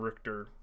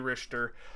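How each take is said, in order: First: The middle consonant is a hard k sound. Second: The middle consonant is a breathy throat sound. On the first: The speaker calls it wrong. "I just like the name Richter, and it shouldn't be that" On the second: The speaker calls it right. "because it's a C H. It should be Richter"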